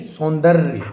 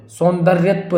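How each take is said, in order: First: सौंदर्य as "saun-darya"; ends in rya. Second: सौंदर्यत्व as "saundarya-tva"; extra tva ending. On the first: Teacher correcting the word, सौंदर्य without "tva". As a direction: finish सौंदर्य on "rya", no suffix. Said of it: "क्या होगा?". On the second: Teacher showing the mistake, सौंदर्यत्व with extra suffix. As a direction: add "tva" to the end of सौंदर्यत्व. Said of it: "सौंदर्यत्व नहीं". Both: Shown as a demonstration.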